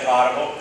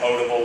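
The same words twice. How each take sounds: First: It uses the regional Southern pronunciation. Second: It uses the standard, northern pronunciation. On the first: "that's how we pronounce it in the south" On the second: "I know it's called potable water"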